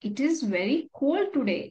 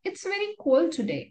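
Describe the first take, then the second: First: It is said as two separate words. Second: It is said contracted as one syllable.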